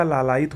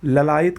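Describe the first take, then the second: First: लालायित with long first "laa"; correct pronunciation. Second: ललायित with short first "la"; wrong pronunciation. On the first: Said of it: "लालायित होता है". (लालायित में लंबा "ला") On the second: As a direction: open ललायित on a schwa. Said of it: "का लालायित होता है". (ललायित में पहला "ल" छोटा) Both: Shown as a demonstration.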